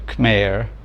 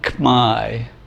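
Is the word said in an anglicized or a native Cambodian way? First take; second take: anglicized; native. First: It is said with the common anglicized pronunciation. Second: It is said with the native Cambodian pronunciation. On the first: The speaker uses the usual English way of saying it. The speaker calls it wrong. "as opposed to Khmer" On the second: The speaker uses the local way of saying it. The speaker calls it right. "saying Khmer"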